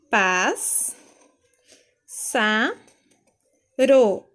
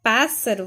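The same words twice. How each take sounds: First: "Pás, sa, ro" one at a time, long pauses; separated syllables. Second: Said in the usual way. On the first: Shown as a demonstration. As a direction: sound out each piece firmly: "Pás, sa, ro". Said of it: "Pássaro vai ficar assim".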